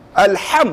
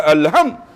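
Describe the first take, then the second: First: "Alham" with a careful Arabic h; correct "alham". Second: "alham" said the careless local way; wrong "alham". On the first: Teacher contrasting right with wrong, careful "Alham". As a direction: articulate "Alham" precisely, lifting at the end. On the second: Teacher showing what to avoid, careless "alham". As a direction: let the h in "alham" go loose and Malay. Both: Shown as a demonstration. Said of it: "bukan alham".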